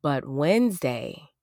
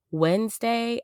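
First: Said in the usual way. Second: "Wednesday" pitched much higher, stressed; emphatic repeat. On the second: Real, not acted. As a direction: hit "Wednesday" high and hard.

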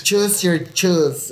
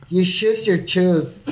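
First: "choose" and "shoes" both start with ch; slow, higher "chooz your chooz" for choose your shoes; Mexican ch for sh. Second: "choose" said "shooz", "shoes" said "chooz"; slow, higher Mexican swap in "choose your shoes"; ch and sh swapped. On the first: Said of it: "Mexicans say shoes". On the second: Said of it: "you'll switch the fucking ch and sh". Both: Shown as a demonstration.

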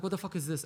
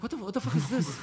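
First: Said in the usual way. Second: Baffled. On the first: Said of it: "And he's like". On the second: Retold or imitated. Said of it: "And he goes like".

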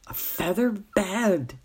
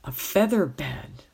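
First: "A feather bed" said slowly, savouring each word; slow repeat. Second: Said in the usual way. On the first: A narrator's reading. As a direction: draw out "A feather bed" in wonder. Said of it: "he repeated slowly".

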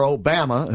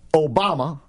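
First: Obama with a flat "bam" middle, "oh-BAM-uh"; regional pronunciation. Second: Said in the usual way. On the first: Shown as a demonstration. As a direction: rhyme Obama with "hammer", dropping the r. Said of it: "if you're from Alabama".

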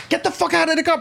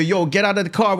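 First: High, pushy cop barking an order; mock cop yelling. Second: Said in the usual way. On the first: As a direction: bark it like an angry cop pulling you out. Cop ordering him out, retold.

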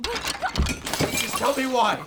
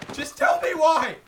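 First: High, slow, dragged-out scream; furious shout. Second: High loud scream; furious shout. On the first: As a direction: scream each word apart. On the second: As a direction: yell it in rage. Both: Acted. Attacking her, shouting.

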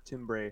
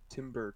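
First: "timbre" said as TIM-bray; tam-bray style pronunciation. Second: "timbre" said like timber; timber pronunciation. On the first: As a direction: end "timbre" on a clear -bray sound. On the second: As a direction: end "timbre" in an -er sound, as in timber. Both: Shown as a demonstration. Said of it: "however the heck you pronounce it".

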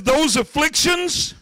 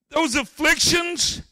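First: Slow drawn-out THOSE with a rise. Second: Slow drawn-out THOSE falling. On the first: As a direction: stretch "Those afflictions" with rising tune. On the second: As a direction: lean on "those afflictions" with a falling close. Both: Retold or imitated. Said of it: "He says".

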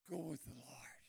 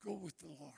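First: "Go with the Lord" whispered, soft and low. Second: Said in the usual way. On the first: Shown as a demonstration.

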